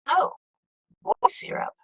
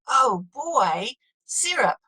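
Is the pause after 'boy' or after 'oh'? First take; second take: after oh; after boy. First: The pause comes after the word oh. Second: The pause comes after the word boy.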